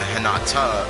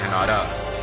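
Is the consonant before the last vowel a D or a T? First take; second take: T; D. First: The last syllable starts with a T sound. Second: The last syllable starts with a D sound. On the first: "instead of" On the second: "I r- replace T's with D's, if that's how I mispronounce it"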